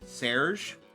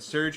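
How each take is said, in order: First: The name is said with a French pronunciation. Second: The name is said with an English pronunciation. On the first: "the French treat it more like Serge" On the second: "Surge is the English pronunciation"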